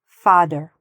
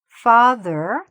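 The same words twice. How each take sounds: First: The middle consonant is a hard d sound. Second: The middle consonant is a soft th sound. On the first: The speaker calls it wrong. "sounds like a D, ... it might sound like father. No" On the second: The speaker calls it right. "instead of saying father"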